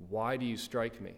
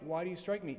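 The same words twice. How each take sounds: First: Lower, even reading voice; measured scripture reading. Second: Animated challenge. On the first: A narrator's reading. Preacher reading Jesus' answer to the officer, measured scripture reading. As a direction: read the question soberly and evenly. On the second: Acted. Preacher paraphrasing Jesus to the man who struck him, animated challenge. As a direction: put it to them as an open challenge. Retells Jesus' answer in own words.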